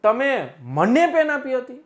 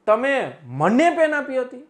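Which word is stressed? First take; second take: મને; મને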